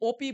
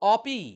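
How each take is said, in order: First: The first vowel sounds like 'o'. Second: The first vowel sounds like 'a'. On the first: The speaker calls it wrong. "আমরা কিন্তু এটাকে বাঙালিরা একটু ভুল উচ্চারণ করি, ওপি বলি" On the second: The speaker calls it right. "তাহলে আমরা বলবো অপি"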